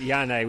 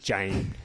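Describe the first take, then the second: First: The name begins with a Y sound. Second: The name begins with a J sound. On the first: The speaker calls it wrong. "Maybe she likes to pronounce it Yane" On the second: The speaker calls it right. "but in fact it's just Jane"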